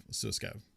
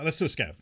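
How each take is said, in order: First: Murmured to himself as an afterthought; much softer repeat. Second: Said in the usual way. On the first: Shown as a demonstration. Streamer repeats his scav suggestion, much softer. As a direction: echo it under the breath, much softer.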